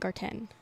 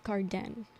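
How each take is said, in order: First: The last part is said with a T sound. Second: The last part is said with a D sound. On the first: "It's not garten" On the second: "with the D though"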